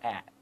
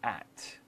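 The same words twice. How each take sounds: First: The final T is swallowed and barely heard. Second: The final T is pronounced, but softly. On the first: "Muitas vezes a gente até come o T, assim, fala at" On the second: "Mas o T bem assim leve"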